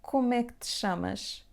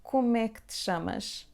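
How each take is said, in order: No difference in how they are said.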